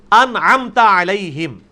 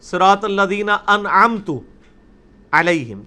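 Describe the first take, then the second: First: انعمت said slowly, ending in انعمتا with a short a; Arabic recitation, slow and exact; correct recitation. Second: انعمت said as انعمتُ with a u ending, slow; wrong vowel demo. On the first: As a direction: stretch out انعمت and close on a clear a. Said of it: "انعمتا ہے". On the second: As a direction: deliberately end انعمت on u, meaning my favour. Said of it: "اگر میں اسے پیش پڑھ دوں". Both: Shown as a demonstration.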